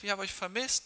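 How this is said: It is spoken in a high, warm voice. It shows a lot of love to the children. The speaker calls it right. "Warum werde ich eine hohe Stimme haben?"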